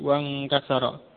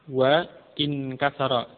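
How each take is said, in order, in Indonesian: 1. Wa langsung menyambung ke inkasara tanpa jeda. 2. Hamzah memisahkan wa dari inkasara. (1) "menjadi wa inkasara karena hamzahnya adalah wasl" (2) "maka tidak diucapkan wa inkasara"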